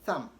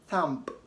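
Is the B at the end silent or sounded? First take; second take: silent; sounded. First: The final B is silent. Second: The final B is clearly sounded. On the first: The speaker calls it right. "rather say thumb" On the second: The speaker calls it wrong. "you don't want to say thumb"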